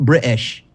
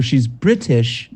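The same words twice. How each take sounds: First: "British" with the t swallowed, Bri-ish; mock common British way, "British" as Bri-ish; dropped-middle British. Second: "British" slowly with a crisp, clear middle t; refined "British", both syllables complete; fully pronounced British. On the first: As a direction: break "British" at a glottal stop. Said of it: "there's no I, it's just British". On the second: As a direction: pronounce every sound in "British", T included. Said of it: "not British". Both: Shown as a demonstration.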